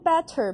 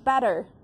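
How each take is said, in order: First: The t is a crisp, released stop. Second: The t is a soft, quick flap. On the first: The speaker calls it wrong. "你念better 不对" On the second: The speaker calls it right. "你要念better"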